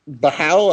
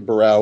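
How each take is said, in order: First: The middle consonant sounds like an H. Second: The middle consonant sounds like an R. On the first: This is how the other person says the name. "you say Bahau" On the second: This is how the speaker says the name. "I say Barão, ... I think they pronounce that R"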